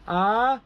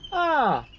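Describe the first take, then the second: First: The pitch goes from low to high. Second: The pitch goes from high to low. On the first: "rising tone" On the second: "falling tone"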